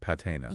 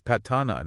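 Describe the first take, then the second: First: The middle vowel is an 'ay' sound. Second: The middle vowel is an open 'ah' sound. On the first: The speaker calls it wrong. "not patena" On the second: The speaker calls it right. "we need to focus on that ah sound, like in bat"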